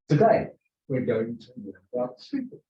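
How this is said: It is said with lively, rising and falling pitch.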